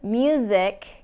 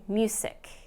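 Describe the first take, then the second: First: The middle consonant is a buzzing voiced Z. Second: The middle consonant is a hissing voiceless S. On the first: The speaker calls it right. "Instead of music" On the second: The speaker calls it wrong. "I'm hearing music"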